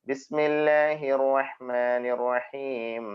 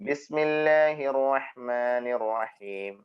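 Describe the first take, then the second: Both takes have the same delivery.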